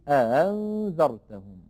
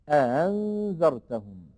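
No difference in how they are said.

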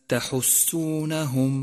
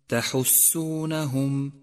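No difference in how they are said.

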